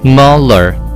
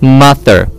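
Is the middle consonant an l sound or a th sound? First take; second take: l sound; th sound. First: The middle consonant is an l sound. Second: The middle consonant is a th sound. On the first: The speaker calls it wrong. "或是L 的音" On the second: The speaker calls it right. "咬着舌尖念的"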